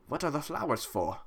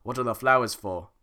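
First: Put-on old guy voice. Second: Redo of the line. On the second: Acted. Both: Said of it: "That sounded like an old guy".

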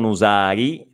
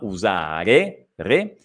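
First: "usari" ending in an ee sound; "usari" with I in place of final E; wrong I ending. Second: Slow "usare" with a clear final E, then "re" alone; drawn-out "usare", ending eh rather than ee; correct E ending. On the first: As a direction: show the mistaken "usari", last vowel I. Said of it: "non usari". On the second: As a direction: stretch "usare" and isolate its last syllable "re". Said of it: "E finale". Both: Shown as a demonstration.

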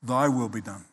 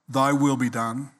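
First: "Thy will be done" lower and softer, falling heavily to a close; final verdict. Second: "Thy will be done" said with an open rising tune, offered up; surrendering tune. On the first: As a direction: let it drop like a sentence passed. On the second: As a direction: hand it over to God, rising on will. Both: Shown as a demonstration. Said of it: "only two kinds of people".

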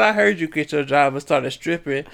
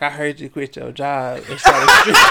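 First: Said in the usual way. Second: Laughing quote. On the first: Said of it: "he said". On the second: Retold or imitated. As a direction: quote brother through laughter. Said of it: "he was like".

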